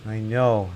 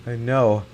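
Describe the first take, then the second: No difference in how they are said.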